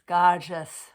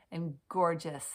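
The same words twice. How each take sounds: First: "gorgeous" belted out much louder; loud gushing. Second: Said in the usual way. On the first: Shown as a demonstration. Tarot reader gushing over the card, shouting "gorgeous". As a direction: blast the word "gorgeous" with delight.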